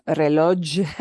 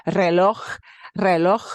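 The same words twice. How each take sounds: First: Reloj said with an English zh at the end; mispronounced reloj; wrong pronunciation. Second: Reloj ending in a throaty ch, like Loch; correct pronunciation. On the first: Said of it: "that's not pronounced reloj". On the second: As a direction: reloj with a rough ch at the end. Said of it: "It's reloj". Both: Shown as a demonstration.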